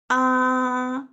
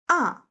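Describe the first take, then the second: First: It is a plain open-mouthed ah sound. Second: The pitch falls down sharply, sounding angry. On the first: "open mouth sound" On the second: "angry sound"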